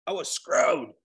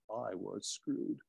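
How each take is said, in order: First: Mock British "I was screwed", breathy and light; British accent. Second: Said in the usual way. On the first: Shown as a demonstration. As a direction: put on a Brit voice for "I was screwed". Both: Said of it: "Gotta say it like a Brit".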